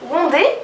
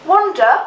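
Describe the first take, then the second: First: It is said with a strong French accent. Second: It is said with a British English accent. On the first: "carrément wondé" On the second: "je vais quand même le faire à l'anglaise"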